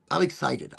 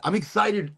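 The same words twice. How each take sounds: First: Said in the usual way. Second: Excited. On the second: Shown as a demonstration.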